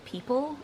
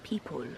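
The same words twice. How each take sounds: First: The last syllable has a weak schwa vowel. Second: The last syllable has a low, open vowel. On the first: The speaker calls it right. "where we would say people. Again, the schwa" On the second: The speaker calls it wrong. "he says people with this weird, like, low vowel"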